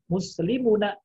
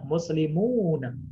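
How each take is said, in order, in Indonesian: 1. Vokalnya pendek, tidak dipanjangkan. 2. Vokalnya dibaca panjang selama dua ketukan. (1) "kalau nggak dibaca panjang" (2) "Maka dia harus dibaca panjang dua harokat"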